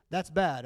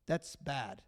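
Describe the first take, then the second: First: Said in the usual way. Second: Quiet, dismissive shrug of a line; indifferent shrug. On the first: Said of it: "If you ask me factually". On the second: Retold or imitated. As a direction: say it like it's no concern of yours. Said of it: "and you're like, "Huh".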